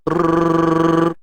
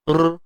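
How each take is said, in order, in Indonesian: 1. R digetarkan dengan tiga ketukan. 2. R digetarkan dengan satu ketukan. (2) "tu satu"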